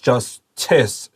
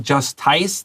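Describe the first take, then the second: First: The last syllable is a short weak 'iss'. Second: The last syllable sounds like 'ice'. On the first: The speaker calls it right. "It's justice" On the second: The speaker calls it wrong. "Don't say justice. That's not ice"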